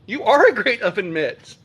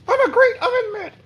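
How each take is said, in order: First: Said in the usual way. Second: Much higher puppet voice for the oven mitt. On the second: Pretend. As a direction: make the oven mitt talk. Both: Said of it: "if I did voices or whatever".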